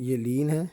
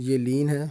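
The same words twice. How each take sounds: No difference in how they are said.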